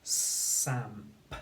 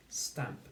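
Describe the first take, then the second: First: "Samp" blended with no t after the s; missed t sound. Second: "Stamp" blended whole, with t between s and a; t sound included. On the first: Teacher shows pupils the misspelling, t sound missing. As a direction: say "Samp", s running straight into the vowel. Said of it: "They've missed the sound". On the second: Teacher gives pupils the corrected word, t sound included. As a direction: say "Stamp" as one word, t clearly in it. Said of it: "They need a t sound". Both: Shown as a demonstration.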